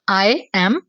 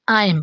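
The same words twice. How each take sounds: First: Both words are said fully and separately. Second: The words are shortened into one quick syllable. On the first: "एक आई एम यानी कि मैं हूँ" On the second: "अंग्रेजों की तरह सही प्रोनाउंसिएशन; ये शॉर्टली प्रोनाउंस किया जाता है"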